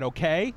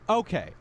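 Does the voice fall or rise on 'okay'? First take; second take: rises; falls. First: The voice rises on 'okay'. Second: The voice falls on 'okay'. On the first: It closes the objection as a challenge. "You're not going to put the falling tone at the end of the sentence" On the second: It opens a firm objection. "You would say that okay at the beginning of the sentence"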